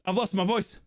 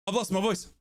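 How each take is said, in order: Both takes have the same delivery.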